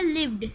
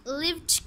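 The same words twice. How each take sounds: First: "लिव्ड" with a voiced d, as livd; correct d ending. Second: "लिव्ड" with a t at the end, as livt; wrong t ending. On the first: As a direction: close "लिव्ड" on a d sound. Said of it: "इसकी correct pronunciation है". ("लिव्ड" के अंत में ड की आवाज़) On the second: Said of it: "यहाँ पर भी ट की साउंड दे देते हैं". ("लिव्ड" के अंत में ट की आवाज़) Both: Shown as a demonstration.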